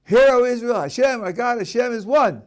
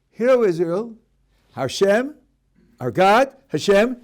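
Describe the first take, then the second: First: Hear O Israel read straight through as a single declaration; raised proclaiming recitation; one unbroken phrase. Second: "Hashem," "our God," "Hashem," each set apart by pauses with a rising end; split into three. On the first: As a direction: proclaim "Hashem, our God, Hashem is one" without breaks. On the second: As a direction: chop it into three separate names to imply a Trinity. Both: Shown as a demonstration. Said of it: "They read it like this".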